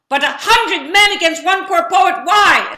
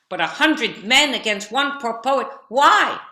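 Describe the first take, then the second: First: The line is said at a very loud volume. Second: The line is said at a loud volume.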